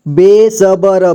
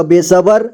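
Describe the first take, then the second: First: बेसबर drawn out in separate syllables. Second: Said in the usual way. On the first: Shown as a demonstration. Teacher showing learners how to read बेसबर, slowly syllable by syllable. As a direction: sound out बेसबर slowly, piece by piece. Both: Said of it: "जोड़ जोड़ करके".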